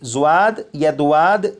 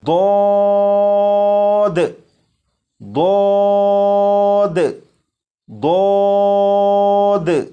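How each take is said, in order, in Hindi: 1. स्वर से पहले एक 'w' ग्लाइड आती है। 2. स्वर एक सादा लंबा 'a' ध्वनि है। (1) "नहीं पढ़ेंगे" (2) "बल्कि अलिफ की आवाज के साथ"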